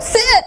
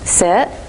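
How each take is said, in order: First: The word is shouted angrily. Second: The word is said calmly and gently.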